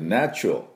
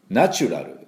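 First: The 'nachu' part is said lightly and reduced. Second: The 'nachu' part is said strongly and fully. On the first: The speaker calls it right. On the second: The speaker calls it wrong.

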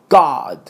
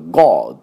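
First: The vowel is an open American 'ah'. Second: The vowel is a rounded British 'o'. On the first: "アメリカ人だとGod" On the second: "イギリス人だとGod"

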